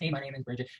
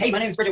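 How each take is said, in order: First: It is said flatly, with low energy. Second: It is said with lively, high energy.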